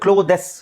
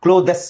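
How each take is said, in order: Both takes have the same delivery.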